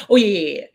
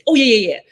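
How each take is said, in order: First: Said in the usual way. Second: Loud, high, breezy brush-off yeahs; doctor impression. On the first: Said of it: "exactly what he did". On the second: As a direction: mimic the doctor's careless cover-up, louder and higher. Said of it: "I love doing this 'cause exactly what he did".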